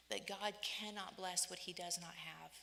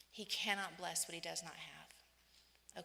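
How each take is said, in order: First: Said in the usual way. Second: Slowed, leaning on "cannot"; slow emphatic repeat. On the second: Real, not acted. Preacher repeating the point to the congregation, slow and emphatic. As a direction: drive it home word by word.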